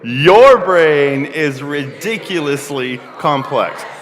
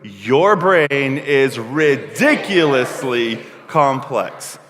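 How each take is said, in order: First: The word ridiculously is said plainly. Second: The word ridiculously is said with dramatic oomph.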